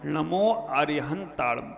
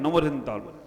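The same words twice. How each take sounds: First: It is recited slowly and calmly. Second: It is recited fast and hurried.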